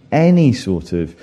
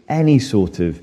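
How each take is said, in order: Both takes have the same delivery.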